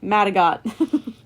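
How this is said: The name is said in a Canadian accent.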